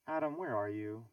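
It is said in a soft, pleading tone. A hurt father asking why he did it. "change the tone"

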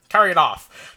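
It is read in a put-on voice.

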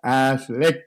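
The name is said with a Cree pronunciation. "And in Cree, it's pronounced Aslek"

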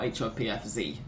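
The final letter is said in an American way.

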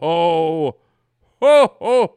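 It sounds like a deep, merry release. The speaker is full of good cheer. "a guttural release of merriment"

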